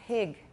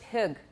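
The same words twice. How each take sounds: First: The vowel is raised partway toward ee. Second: The vowel is a plain short i sound. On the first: "But I say" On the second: "if I'm following the vowel strictly, it would be"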